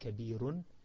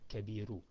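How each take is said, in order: First: The word ends with an n sound. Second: The word ends in a vowel, no n. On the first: The speaker calls it right. "we say kabirun" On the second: The speaker calls it wrong. "we don't say kabiru"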